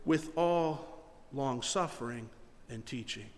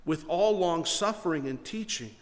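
First: Slow, soft, drawn-out quote; slow reverent reading. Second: Said in the usual way. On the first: Shown as a demonstration. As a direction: lay each word down gently. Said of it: "we forget these last few words". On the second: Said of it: "The last few words say".

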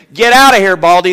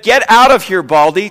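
First: Mock taunt, louder and higher; jeering boys. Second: Loud mock taunt, higher, rising on Baldy; sing-song schoolyard jeer; jeering boys. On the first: Preacher acting out boys taunting Elisha, loud mock jeer. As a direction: jeer it like a mocking kid. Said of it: "some boys came out of the town and jeered at him". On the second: Preacher repeating the boys' taunt at Elisha, mock jeer. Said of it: "they said".

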